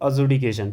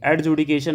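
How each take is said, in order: First: No d sound is heard before the j. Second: A d sound is heard before the j. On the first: The speaker calls it right. "डी यहाँ पे silent है, इसको बोलेंगे अजुडिकेशन" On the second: The speaker calls it wrong. "एडजुडिकेशन नहीं बोलेंगे"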